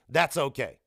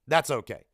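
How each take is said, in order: Both takes have the same delivery.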